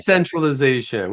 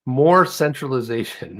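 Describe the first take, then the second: First: DE stretched and stressed in "Decentralization". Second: MORE drawn out before "centralization"; stress on MORE. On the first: Host correcting "more centralization", stress on DE. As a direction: punch the first syllable, DE, of "Decentralization". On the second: Host mock-announcing what is missing, stress on MORE. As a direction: lean slowly on the word MORE. Mock morning revelation, contrasted words. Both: Acted.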